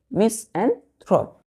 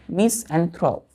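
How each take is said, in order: First: मिस एंथ्रोप said slowly, a bit higher, syllable by syllable; teacher modelling the new word carefully; careful pronunciation. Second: Said in the usual way. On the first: Shown as a demonstration. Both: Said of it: "ध्यान से".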